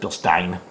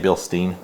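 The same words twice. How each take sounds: First: The name is pronounced the German way. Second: The name is pronounced the English way. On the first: "it's Bilstein because it's German" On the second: "I say Bilstein"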